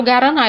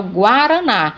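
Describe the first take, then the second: First: GUARANÁ wrongly said "ga-ra-NA"; U dropped in GUARANÁ. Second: GUARANÁ said "gwa-ra-NA"; U sounded in GUARANÁ. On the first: Teacher showing what is not said, GUARANÁ mispronounced without U. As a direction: leave the w out of GUARANÁ. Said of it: "Eu não falo guaraná". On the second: Teacher showing the U is pronounced, GUARANÁ with gw. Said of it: "eu falo guaraná". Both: Shown as a demonstration.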